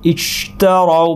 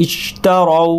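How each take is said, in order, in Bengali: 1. "sh" ধ্বনির বাতাস প্রায় আটকে যায়। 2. "sh" ধ্বনির বাতাস প্রায় আটকে যায়।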